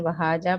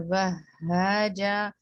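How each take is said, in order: First: وہاجا with a single short ha; shadda dropped, wrong. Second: وہاجا slow, the ha doubled and held. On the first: Teacher showing the common mistake of a dropped shadda. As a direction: rush past the doubled ha in وہاجا. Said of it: "شدہ drop ہو جاتی ہے". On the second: Teacher reciting the correct doubled ha. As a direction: hold the shadda on the ha of وہاجا. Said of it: "make sure کریں ہا". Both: Shown as a demonstration.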